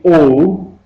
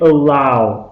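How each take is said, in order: First: The vowel sounds like 'oh'. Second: The vowel sounds like 'ow'. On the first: The speaker calls it wrong. "don't say O" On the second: The speaker calls it right. "say allow, ow"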